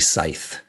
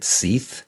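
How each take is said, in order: First: The vowel sounds like 'sigh'. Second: The vowel sounds like 'see'. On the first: The speaker calls it right. "it's actually Scythe" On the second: The speaker calls it wrong. "I pronounced his name wrong. So I pronounced it Seath"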